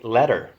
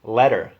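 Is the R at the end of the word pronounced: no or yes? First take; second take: yes; yes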